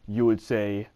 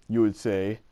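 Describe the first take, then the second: The two takes are said the same way.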